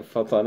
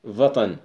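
First: فطن with f, fetn; Arabic f. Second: وطن with v, vatan; Turkish v. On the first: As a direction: say فطن with a plain f. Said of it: "يعربها بعضهم فطن". (فطن بالفاء) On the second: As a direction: say وطن with a v sound. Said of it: "مثل مثلًا وطن". (وطن بالفاء التركية) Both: Shown as a demonstration.

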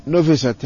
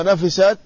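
First: "نفست" as nufisat, u after the n; nu-fi-sat for "نفست", no doubled fa; damma on noon. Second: "نفست" as nafisat, a after the n; na-fi-sat for "نفست", opening on an a; fatha on noon. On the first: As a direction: say "نفست" with short u, then i, single f. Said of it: "بضم النون وكسر الفاء". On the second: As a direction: say "نفست" with short a, then i. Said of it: "بفتح النون". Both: Shown as a demonstration.

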